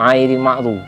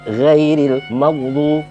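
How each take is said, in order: First: The first word begins with a plain vowel. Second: The first word begins with a gh sound. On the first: The speaker calls it wrong. "jangan disebut airil maghdu, itu salah" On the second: The speaker calls it right. "itu ghin bukan ain"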